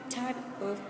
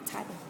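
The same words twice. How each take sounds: First: Each word is said separately and in full. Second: The words run together in a reduced form.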